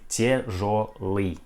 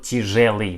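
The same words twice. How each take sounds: First: The last stressed vowel sounds like yo. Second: The last stressed vowel sounds like ye. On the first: The speaker calls it right. "We pronounce like тяжелый" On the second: The speaker calls it wrong. "not тяжелый"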